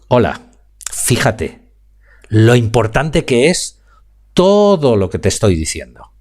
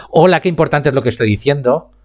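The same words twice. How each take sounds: First: "Hola", pause, "fíjate", pause, then "lo importante que es" slowly; modulated with pauses. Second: Said in the usual way. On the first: Shown as a demonstration. Speaking coach demonstrating pauses to his students, with a deliberate slowdown. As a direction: lay out the words with controlled pauses between phrases. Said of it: "Fíjate cómo acabo de jugar en un momentín con la modularización". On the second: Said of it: "no es lo mismo decir".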